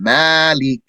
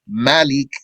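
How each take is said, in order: First: The first vowel is drawn out long. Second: The first vowel is kept short. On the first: "with an extension" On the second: "without an extension"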